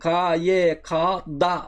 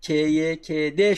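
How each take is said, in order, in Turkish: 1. Harfler a sesiyle adlandırılır. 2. Harfler e sesiyle adlandırılır. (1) "derseniz hata yaparsınız" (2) "bütün harfler yanlarına E sesi getirilerek seslendirilir"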